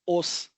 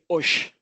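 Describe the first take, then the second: First: It is said without the Rio accent. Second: It is said in the Rio accent. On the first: "we don't say os" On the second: "when we say plural, we don't say os, we say osh"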